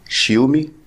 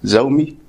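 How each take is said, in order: First: The name begins with a sh sound, shee. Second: The name begins with a z sound, zoo. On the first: "او شيومي" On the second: "مش زومي"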